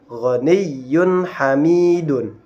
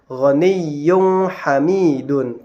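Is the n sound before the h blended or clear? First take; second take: clear; blended. First: The n sound before h is pronounced clearly. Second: The n sound before h is blurred, not clear. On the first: The speaker calls it right. "tetapi dibaca" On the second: The speaker calls it wrong. "Tidak dibaca"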